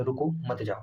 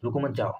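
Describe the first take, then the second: First: "रुको", short pause, then "मत जाओ" as one unit; pause after रुको. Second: "रुको मत" run together, then "जाओ"; pause after मत. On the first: Teacher shows students the comma after रुको, pause after रुको. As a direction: break after रुको, keeping मत joined to जाओ. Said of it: "रुको के बाद कामा लगे". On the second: Teacher shows the misheard meaning to students, रुको मत grouped before जाओ. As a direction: join मत onto रुको, setting जाओ apart. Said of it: "आप एक बार ऐसा समझो रुको मत". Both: Shown as a demonstration.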